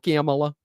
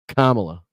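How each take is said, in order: First: The name is said in a Minnesota accent. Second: The name is said in a neutral accent. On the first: "if you're up in Minnesota, you probably say the Kamala" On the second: "That's how you fucking say her name"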